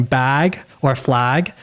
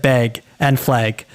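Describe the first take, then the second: First: Said in the usual way. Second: "beg" said with the short e of bed, slowly, in place of bag; Minnesota vowel. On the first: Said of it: "instead of saying bag or flag". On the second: Retold or imitated. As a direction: imitate the friend saying "beg" for bag, drawn out. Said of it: "instead of saying bag or flag, she said".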